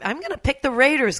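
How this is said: It sounds confident and forceful.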